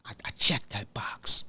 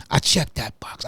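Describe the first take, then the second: First: Hushed whisper, barely voiced. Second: Said in the usual way. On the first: Real, not acted. Host to himself, checking his own box, whispered. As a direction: breathe it out like a secret to yourself. Quiet self-affirmation.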